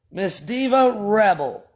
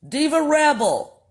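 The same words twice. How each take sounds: First: "Miss Diva Rebel" slow, each word weighed; slow formal. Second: "Diva" jumps up high, then falls; high announcing. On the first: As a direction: spell out "Miss Diva Rebel" slowly and pointedly. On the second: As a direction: call out "Diva Rebel" high and sing-song. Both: Shown as a demonstration. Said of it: "What is this young lady's name?".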